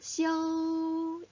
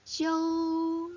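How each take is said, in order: No difference in how they are said.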